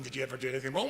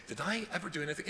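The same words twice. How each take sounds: First: "wrong" stressed with a rising end. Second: "I" stressed, falling at the end. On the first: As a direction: lift the word "wrong" as a question. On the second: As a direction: lean on "I" in "Did I ever do anything?". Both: Shown as a demonstration. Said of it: "It doesn't mean".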